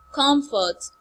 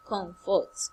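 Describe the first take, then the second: First: "Comfort" pitched high and loud; high take of COMFORT. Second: "comfort" on a low, relaxed tone; low take of COMFORT. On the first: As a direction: lift "Comfort" onto the high tone. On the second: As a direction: let "comfort" sit low after the high one. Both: Shown as a demonstration. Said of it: "High, then low".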